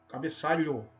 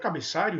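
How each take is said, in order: First: The word ends with an 'lh' and 'o' sound. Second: The word ends with an 'r' and 'io' sound. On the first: The speaker calls it right. "é cabeçalho" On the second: The speaker calls it wrong. "Não é cabeçário"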